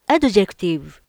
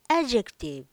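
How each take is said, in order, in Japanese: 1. Dの音は強く発音されています。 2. Dの音はほとんど消えています。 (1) "私はD の音が強すぎました。" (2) "D が消えちゃいました。"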